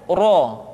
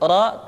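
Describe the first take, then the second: First: The vowel is rounded, with pushed-out lips. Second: The vowel is open, with unrounded lips. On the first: The speaker calls it wrong. "tidak ro" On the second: The speaker calls it right. "terbuka rongga mulut kita"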